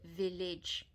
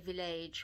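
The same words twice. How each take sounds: First: The last syllable has a short 'ih' vowel. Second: The last syllable has an 'ay' vowel. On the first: The speaker calls it right. "that A is pronounced as an I" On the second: The speaker calls it wrong. "We don't say village"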